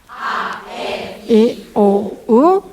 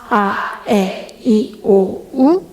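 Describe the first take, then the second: No difference in how they are said.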